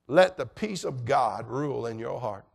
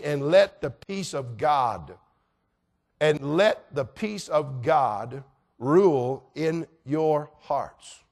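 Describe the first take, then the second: First: Said in the usual way. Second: "let" stressed, read slowly and deliberately; slow emphatic reading. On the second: Shown as a demonstration. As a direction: lean hard on "let", drawn out. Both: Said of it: "follow with me".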